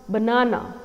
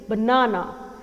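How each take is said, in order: The two takes are said the same way.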